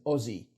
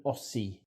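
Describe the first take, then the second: First: "Aussie" with a buzzing z, "Ozzie"; Australian pronunciation. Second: "Aussie" with a hissing s, "Ossee"; American mispronunciation. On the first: Presenter teaching fellow Americans, "Aussie" with z. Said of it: "The familiar term for an Australian is". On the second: Presenter showing Americans' error, "Aussie" with s. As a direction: say "Aussie" as "AW-see". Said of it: "not an Aussie". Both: Shown as a demonstration.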